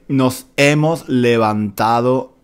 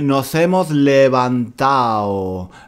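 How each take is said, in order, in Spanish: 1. La d de levantado se pronuncia. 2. La d de levantado se omite. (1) "El chico no dice" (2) "El chico dice, ... no decimos la D del participio pasado"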